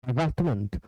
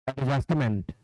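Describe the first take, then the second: Both takes have the same delivery.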